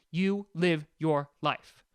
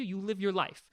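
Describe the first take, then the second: First: Word-by-word YOU LIVE YOUR LIFE, lower; slow, emphatic. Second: Said in the usual way. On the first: Real, not acted. Repeats it slowly for emphasis.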